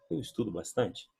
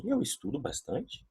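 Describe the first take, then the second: First: Mock existential doubt. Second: Rising question, softer; question tune. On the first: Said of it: "Eu entro numa crise existencial". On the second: Teacher showing the Portuguese question intonation, rising. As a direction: ask it as a real question, voice going up. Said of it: "eu vou dizer assim". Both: Shown as a demonstration.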